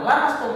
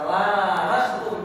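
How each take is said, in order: First: The vowel after the L is short. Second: The vowel after the L is long. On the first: It means touching skin. "la mastum nama pendek artinya menyentuh secara kulit" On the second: It means mutual touching, a figure for intercourse. "la mastum pakai lam alif"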